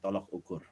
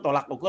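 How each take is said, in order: First: The second syllable of the first word has 'o'. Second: The second syllable of the first word has 'a'. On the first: The speaker calls it right. "K B B I yang baik dan benar" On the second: The speaker calls it wrong. "yang benar tolak ukur apa tolok ukur?"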